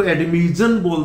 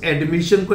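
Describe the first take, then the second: First: एडमिशन said as "admizhan"; mispronounced ending. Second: Said in the usual way. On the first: Shown as a demonstration. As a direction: buzz the sh of एडमिशन into z/zh. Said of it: "तो ये गलत हो जाएगा". (एडमिशन का गलत उच्चारण, "एडमिज़न") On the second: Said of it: "इस एडमिशन को".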